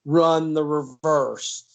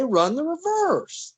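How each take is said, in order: First: Slow and firm, every word weighted; firm order. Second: High, slow, exasperated run the reverse; exasperated order. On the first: Bryant gripping Mal's arm, slow and firm. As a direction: lay it down slowly so he knows you mean it. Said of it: "he knew he meant what he said". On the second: Bryant repeating his order to Mal, high and exasperated. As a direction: pitch it way up as the order is ignored again. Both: Retold or imitated.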